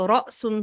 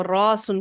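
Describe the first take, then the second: First: رأسن with a catch in the throat after the first vowel; hamza pronounced. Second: راسن with one long unbroken "aa", no catch; hamza turned to alif. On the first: Teacher showing students the original word, hamza pronounced. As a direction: say رأسن, stopping briefly on the hamza. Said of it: "حمزہ ساکن ہے". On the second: Teacher showing students the changed word, long alif. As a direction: stretch the first vowel of راسن smoothly. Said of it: "تو وہ راسن بن گیا". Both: Shown as a demonstration.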